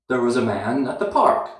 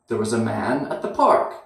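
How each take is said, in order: No difference in how they are said.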